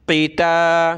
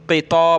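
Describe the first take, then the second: First: क़िता with heavy "q", then a light open "taa"; thin, light taa. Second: क़िता said as "qitaw", heavy rounded second syllable; wrongly thickened taa. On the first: Quran teacher modelling the correct way, thin "taa" in क़िता. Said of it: "ता बारीक है". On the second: Teacher showing the mistake to avoid, heavy "taw" in क़िता. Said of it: "ता को मोटा नहीं कर देना". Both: Shown as a demonstration.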